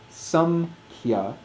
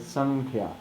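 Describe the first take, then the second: First: The nasal is said with closed lips, like m. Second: The nasal is said at the back, like n. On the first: The mouth has to move back to reach the next sound. The speaker calls it wrong. "more difficult to say samkhya" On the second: The mouth flows straight into the next sound. The speaker calls it right. "Sankhya is right there"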